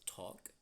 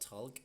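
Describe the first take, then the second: First: The L sound is silent in the word. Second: The L sound is pronounced in the word. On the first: The speaker calls it right. "the L sound is silent" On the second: The speaker calls it wrong. "normally people say the L sound"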